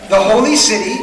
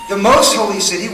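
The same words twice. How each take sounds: First: Holy pressed louder, falling; the holy city with holy weighted; stress on holy. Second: Most hit with a rise; building up: the most holy city with most stressed. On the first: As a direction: lean on holy with a falling tune. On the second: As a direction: punch most, then let holy city follow. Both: Shown as a demonstration.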